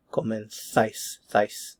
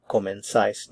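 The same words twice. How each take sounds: First: Comenzáis with "th" for z, then "záis" alone as "thais"; Spain pronunciation. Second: Comenzáis with the z said as "s"; non-Spain pronunciation. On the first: Teacher contrasting Latin America and Spain, "th" in comenzáis. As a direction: say comenzáis as "comen-thais", isolating the last syllable. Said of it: "but in Spain". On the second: Teacher contrasting with Spain, comenzáis with an "s" sound. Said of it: "they wouldn't pronounce it". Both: Shown as a demonstration.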